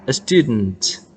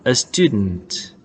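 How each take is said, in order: Both takes have the same delivery.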